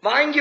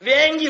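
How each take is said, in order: First: The first vowel is a long open 'aa'. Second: The first vowel is a front 'e' sound. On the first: This is how the written word should be read. "வாங்கி வந்தேன் தானே வாசிக்கணும்" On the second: This is how a regional dialect speaker reads it. "வேங்கின்னு வாசிப்பாங்க"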